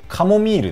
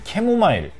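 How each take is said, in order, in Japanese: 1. 日本式の発音で、'kamomiiru'です。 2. 韓国式の発音で、'kemomairu'です。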